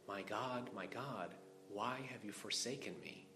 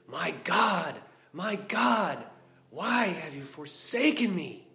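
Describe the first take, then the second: First: It is said plainly, with restraint. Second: It is said fully, with great force.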